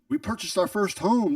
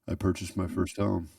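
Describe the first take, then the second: First: It is said with great excitement. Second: It is said flatly, without excitement.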